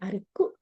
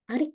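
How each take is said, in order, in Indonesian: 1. Konsonan k digandakan dan vokal u ditambahkan di akhir. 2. Nama itu berakhir dengan bunyi k biasa. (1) "bukan Arikku" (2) "tapi Arik des"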